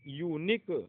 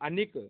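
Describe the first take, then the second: First: The word starts with a 'yoo' sound. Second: The word starts with an 'uh' sound. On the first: The speaker calls it right. "यू पढ़ा जाएगा" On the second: The speaker calls it wrong. "इसको ए नहीं पढ़ेंगे"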